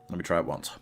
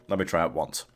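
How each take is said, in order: The two takes are said the same way.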